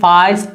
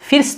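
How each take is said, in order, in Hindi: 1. यह स्वर लंबी 'ah' आवाज़ है। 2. यह स्वर छोटी 'i' आवाज़ है। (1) "ना ही फास्ट पढ़ रहे हैं" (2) "इसको फिर्स्ट नहीं पढ़ रहे हैं"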